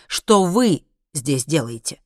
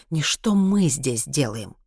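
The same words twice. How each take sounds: First: Slow, pointed stress on «вы». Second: Slow correction leaning on «мы»; stress on МЫ. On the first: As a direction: lean hard on «вы», drawing it out. (с нажимом на слово «вы») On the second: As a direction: hit «мы» to reject that wording. (с ударением на «мы») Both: A narrator's reading. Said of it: "перебил Хайман".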